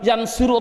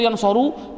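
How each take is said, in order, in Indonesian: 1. Vokal sebelum suku kata terakhir adalah i. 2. Vokal sebelum suku kata terakhir adalah a. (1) "Jawabnya tidak boleh" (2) "Jawabnya tidak boleh"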